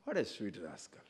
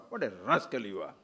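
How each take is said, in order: First: Much softer, tender; fond and soft on What a sweet rascal. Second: Mildly scornful, lower; a touch of contempt on What a rascal you are; insulting. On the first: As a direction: say rascal as a pet name. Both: Shown as a demonstration. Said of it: "Depends on your intonation".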